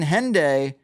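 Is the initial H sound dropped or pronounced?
pronounced. The word begins with a clear H sound.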